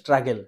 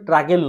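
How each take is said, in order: First: The word starts with an s sound. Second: The word starts without an s sound. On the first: The speaker calls it right. "ওটা হচ্ছে স্ট্রাগেল" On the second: The speaker calls it wrong. "ওটা ট্রাগেল নয়"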